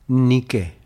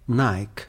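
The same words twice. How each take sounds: First: The first vowel sounds like 'ee'. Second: The first vowel sounds like 'eye'. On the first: It names the Greek goddess of victory. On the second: It is the familiar North American way of saying it.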